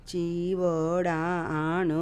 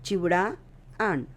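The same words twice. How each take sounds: First: The first vowel is drawn out and long. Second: The first vowel is short and quick. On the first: The speaker calls it wrong. "असं नाही म्हटलं" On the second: The speaker calls it right. "पहिली वेलांटीचा उच्चार पटकन करायचा"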